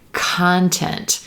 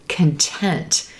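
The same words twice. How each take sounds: First: The stress is on the first syllable. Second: The stress is on the second syllable. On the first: Material that someone creates, like writing. "olive sock content" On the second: Being happy. "shift the stress to the second syllable"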